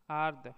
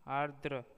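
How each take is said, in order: First: आर्द्र said loudly as "aard"; आर्द्र cut off after the d; wrong pronunciation. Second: Said in the usual way. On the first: Shown as a demonstration. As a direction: drop the last r of आर्द्र. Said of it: "अशुद्ध शब्द". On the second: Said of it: "शुद्ध शब्द".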